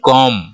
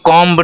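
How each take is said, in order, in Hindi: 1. अंतिम b silent है। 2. अंतिम b बोला जाता है। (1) "B यहाँ पे साइलेंट है. तो इसको हम बोलेंगे comb" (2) "इसको comb नहीं बोलते हैं"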